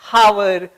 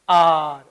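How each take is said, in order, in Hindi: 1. शब्द एक स्पष्ट h ध्वनि से शुरू होता है। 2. शब्द सीधे स्वर ध्वनि से शुरू होता है। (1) "कभी इसको ... हावर ... नहीं पढ़ेंगे" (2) "ये जो एच है ये म्यूट हो गया"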